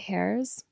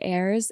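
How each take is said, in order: First: The word starts with an h sound. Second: The word starts with no h sound. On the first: "pronounce the H and say hairs" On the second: "I hear people say heirs"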